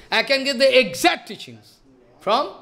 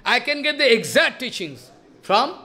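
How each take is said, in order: Both takes have the same delivery.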